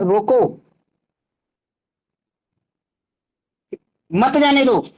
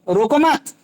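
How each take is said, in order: First: The pause comes right after 'roko'. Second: The pause comes right after 'mat'.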